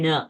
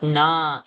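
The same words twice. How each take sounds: First: "na" with a short, brief a; short vowel. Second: "na" with a long, drawn-out aa; long vowel. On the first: Teacher showing the correct length, "na" kept short. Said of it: "it's only na". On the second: Teacher showing the wrong length, "na" held long. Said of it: "because it's not na". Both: Shown as a demonstration.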